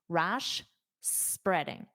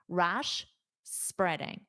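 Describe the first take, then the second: First: There is a clear pause between the words. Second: The same.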